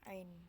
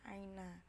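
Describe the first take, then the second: First: The word ends on a consonant, vowel dropped. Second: The word ends with an extra vowel sound. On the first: This is the colloquial dialect form. "tapi dibaca ain" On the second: This is the formal standard form. "di fuskah ini tulisannya aina"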